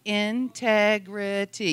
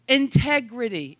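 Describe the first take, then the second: First: "integrity" drawn out slowly, syllable by syllable; slow syllable count. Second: Said in the usual way. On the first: Shown as a demonstration. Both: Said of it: "Yes, that's four syllables".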